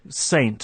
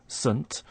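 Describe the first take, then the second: First: The word has a full, strong vowel. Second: The word has a short, weak vowel. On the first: "saying saint with a strong pronunciation" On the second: "we're using the weak form"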